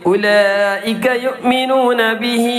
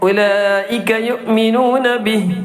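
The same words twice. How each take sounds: First: The final vowel is drawn out and continues on. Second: The phrase stops with a short final vowel. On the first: The reciter continues without pausing. "ബിഹി ഒരല്പം നീട്ടാണ്" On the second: The reciter pauses at this point. "അവിടെ വഖഫ് ചെയ്തു"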